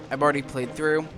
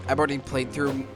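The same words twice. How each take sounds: The two takes are said the same way.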